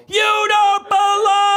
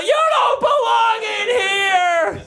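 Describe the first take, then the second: First: High, slow, louder yell; mock yell. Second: High, slow hammed-up yell; mock yell. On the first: Owner yelling at dog, loud drawn-out mock yell. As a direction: belt the scolding out. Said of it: "just when I yelled". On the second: Owner scolding dog in bedroom, hammed-up slow yell. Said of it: "and I yell".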